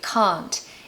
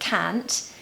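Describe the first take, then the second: First: It has a long 'ah' vowel, like car. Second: It is in a Northern British accent. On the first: "in the received pronunciation British accent, we say can't" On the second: "In the north of Britain, they say can't"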